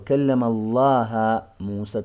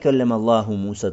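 First: The word Allah ends with an 'a' vowel. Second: The word Allah ends with a 'u' vowel. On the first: Moses spoke to God. The speaker calls it wrong. "Читай вместо даммы фатху" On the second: God spoke to Moses. The speaker calls it right. "не читай каллям Аллаху Муса таклиман"

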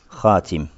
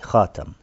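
First: The vowel after the t is 'i'. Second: The vowel after the t is 'a'. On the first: This is the reading of the other six reciters. "Остальные шесть чтений там касра" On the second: This is the reading of one reciter only. "Читал с фатхой"

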